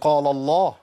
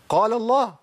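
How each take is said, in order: First: The lam of qaal is pronounced heavy. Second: The lam of qaal is light, Allah's lam heavy. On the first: The speaker calls it wrong. "ما اقولش قال الله" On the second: The speaker calls it right. "قال، وجي بعديها لام لفظ الجلاله المفخمه"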